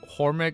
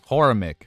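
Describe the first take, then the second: First: The name is said with two syllables. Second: The name is said with three syllables. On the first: The speaker calls it wrong. "not Hormic" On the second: The speaker calls it right.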